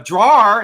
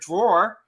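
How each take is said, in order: First: The word is said with a southern accent. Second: The word is said with a standard accent.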